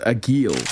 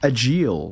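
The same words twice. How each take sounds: First: The middle consonant is a hard G sound. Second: The middle consonant is a soft J sound. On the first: "with like a hard G" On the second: "with like a, a soft J"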